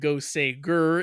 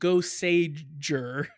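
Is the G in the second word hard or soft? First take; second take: hard; soft. First: The G in the second word is hard. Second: The G in the second word is soft. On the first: The speaker calls it wrong. "is wrong" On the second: The speaker calls it right. "is correct"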